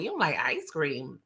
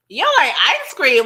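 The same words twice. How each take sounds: First: Low, soft, puzzled question; quietly taken aback; low-key disbelief. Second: High, loud, incredulous question; hammed-up shock at the very idea; loud mock disbelief. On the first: Acted. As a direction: ask it under your voice, dropping low. First, low take of repeated question. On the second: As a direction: blurt it out, pitch swooping up. Repeats question in exaggerated disbelief.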